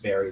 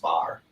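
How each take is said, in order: First: The name is said with two syllables. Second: The name is said with one syllable. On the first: The speaker calls it right. "that's how you pronounce it" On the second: The speaker calls it wrong. "I thought it was just bar"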